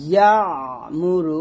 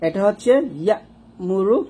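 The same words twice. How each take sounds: First: ইয়া মুরু with a pressed ain in the throat; ain take. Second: ইয়া মুরু with a crisp hamza break; hamza take. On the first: Teacher contrasting ain with hamza. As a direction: squeeze the ain before মুরু. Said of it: "দেখেন কতটা পার্থক্য". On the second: Teacher contrasting hamza and ain. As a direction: catch ইয়া short before মুরু. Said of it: "দেখুন উচ্চারণ দেখুন". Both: Shown as a demonstration.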